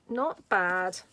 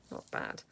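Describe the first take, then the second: First: Said in the usual way. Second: "Not bad." breathed out as a soft whisper; whispered aside. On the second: Real, not acted. Repeats not bad softly.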